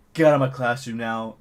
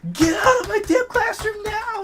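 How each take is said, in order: First: Firm, slightly louder command, no scream; retold firm order. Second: Very high, loud mock screech; imitated furious scream. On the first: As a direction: order them out, imitating a teacher. Upset teacher ordering them out, first take. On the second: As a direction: screech like a teacher losing it. Teacher's order escalates to screaming.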